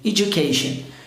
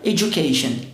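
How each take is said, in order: Both takes have the same delivery.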